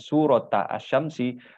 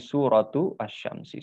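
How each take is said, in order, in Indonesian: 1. Kata 'surat' berakhir dengan vokal 'a'. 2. Kata 'surat' berakhir dengan vokal 'u'. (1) "bukan bukan"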